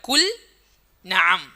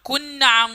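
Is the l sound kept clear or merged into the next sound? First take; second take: clear; merged. First: The l is pronounced clearly before the n. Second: The l merges into the following n sound. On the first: The speaker calls it right. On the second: The speaker calls it wrong.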